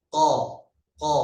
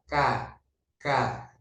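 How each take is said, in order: First: Teacher's "ko" demo, Arabic qaf; raised qaf. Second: "ka" with a light, ordinary k; teacher's "ka" demo, light Arabic kaf. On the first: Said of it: "kalau qaf naik". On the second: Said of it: "Kalau kaf biasa". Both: Shown as a demonstration.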